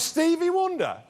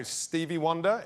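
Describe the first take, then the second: First: High-pitched mock-outraged echo; incredulous scorn. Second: Hesitant, questioning offer; tentative guess. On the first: [name] rejecting the comedian's guess, incredulous. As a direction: throw it back in disbelief, pitched way up. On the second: Retold or imitated. Comedian guessing nervously to [name], tentative. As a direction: float it as an unsure answer.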